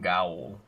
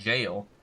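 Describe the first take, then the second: First: The word is read letter by letter, like 'gay-ol'. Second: The word sounds like 'jail', one syllable. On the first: The speaker calls it wrong. "it just pops up and I'm like gaol" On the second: The speaker calls it right. "It is just jail"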